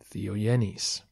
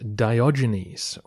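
First: The D and G are softened, not hard stops. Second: The D and G are said as hard stops. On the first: This is how the name is said in Greek. "We lose the D and G in Greek and get Diogenes" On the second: This is the familiar reading of the name. "you've probably read his name as Romanos Diogenes"

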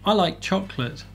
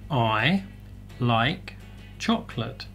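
First: The words run together into one linked phrase. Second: Each word is pronounced separately and distinctly. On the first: "Já na frase, nós juntamos mais as palavras" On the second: "Se você treinar palavra por palavra"

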